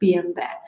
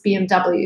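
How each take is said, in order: First: The letters are said the German way. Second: The letters are said the American way. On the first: "in Germany where the the car is made they say" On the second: "in America it's"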